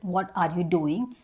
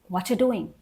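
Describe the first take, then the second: First: Each word is said fully and separately. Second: The words are reduced and run together smoothly.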